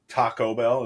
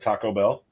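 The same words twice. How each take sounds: First: Taco is said with an unusual emphasis. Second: Taco is said with the ordinary emphasis.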